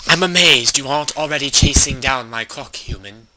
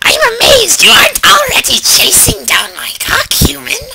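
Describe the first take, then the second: First: It is read in his normal voice. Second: It is read in a put-on imp voice.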